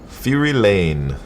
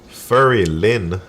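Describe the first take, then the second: First: The name is said as Fury Lane. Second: The name is said as Furry Lin. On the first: The speaker calls it right. "when I read the name right" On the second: The speaker calls it wrong. "Nine out of ten people say"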